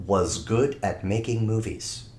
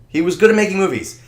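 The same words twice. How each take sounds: First: Said in the usual way. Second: "good" punched, louder and faster; stress on good. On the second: Shown as a demonstration. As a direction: hit the word "good" hard. Repeats the line for emphasis.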